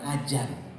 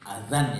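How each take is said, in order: First: The middle consonant is a 'j' sound. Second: The middle consonant is a soft 'dz' sound. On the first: The speaker calls it wrong. "bukan ajan ini sering pengucapannya salah" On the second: The speaker calls it right. "adzan ya"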